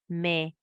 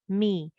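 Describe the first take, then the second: First: The vowel is an open 'eh' sound. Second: The vowel is a close 'ee' sound. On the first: The speaker calls it wrong. "We are saying le, me, be, ye. No, that's wrong. Okay, that's again in the Urdu way" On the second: The speaker calls it right. "Maksur mim is me"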